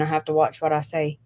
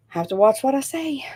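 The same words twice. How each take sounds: First: Said in the usual way. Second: "Have to watch what I say" climbing higher toward SAY; lilting repeat. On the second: Real, not acted. Streamer repeating the caution to viewers, in a rising lilt. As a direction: lift the pitch step by step up to "say".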